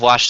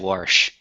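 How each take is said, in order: First: The word is said without an r sound. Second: The word is said with an added r sound. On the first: "Instead of wash" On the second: "they'll say wash"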